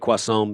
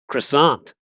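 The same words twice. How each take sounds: First: It is said with a French-style pronunciation. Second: It is said with a local English pronunciation. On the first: The speaker has spent time in France. "I would say croissant because you and I have spent a significant amount of time in France" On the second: This is how people here say it. "over here they say croissant"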